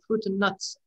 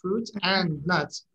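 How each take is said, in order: First: The word 'and' is reduced to 'un'. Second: The word 'and' is said in full. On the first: The speaker calls it right. "Everybody says" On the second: The speaker calls it wrong. "nobody says that"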